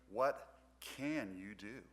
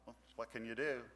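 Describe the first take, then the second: First: It sounds determined and challenging, urging action. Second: It sounds resigned and helpless, like a shrug.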